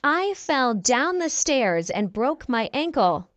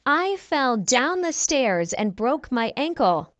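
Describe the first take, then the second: No difference in how they are said.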